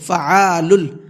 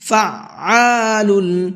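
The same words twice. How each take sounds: First: The middle consonant is said once, without a stop. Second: The middle consonant is doubled with a brief stop. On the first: The speaker calls it wrong. "अक्सर क्या गलती करते हैं इसमें, फ़अआलुल पढ़ते हैं इसको" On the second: The speaker calls it right. "आइन को डबल करके पढ़ना है और थोड़ा सा रुक करके पढ़ना है"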